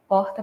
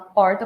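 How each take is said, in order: First: The R is made in the back. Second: The R is strongly pulled. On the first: The speaker is from Rio de Janeiro. "um R é, não puxado, eu fiz um R mais velar" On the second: The speaker is from Goiás. "vai tender a puxar o R"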